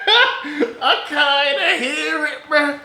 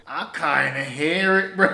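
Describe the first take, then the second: First: Slow, high, loud and laughing; cracking up while saying it; laughing hard. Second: Half laughing while admitting it; chuckling. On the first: Repeats it, cracking up. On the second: Amused at a wet diss. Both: Real, not acted.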